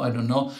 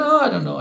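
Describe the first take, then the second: First: Said in the usual way. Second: High, loud, flustered "Oh, I don't know"; dithering friend. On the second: Retold or imitated. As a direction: toss it up like an indecisive friend. Friends dithering over a deal.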